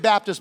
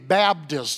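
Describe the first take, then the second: First: The middle consonant is a clear P sound. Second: The middle consonant is a B sound. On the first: The speaker calls it wrong. "you don't say Baptist, B-A-P" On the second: The speaker calls it right. "You say B-A-B, Baptist"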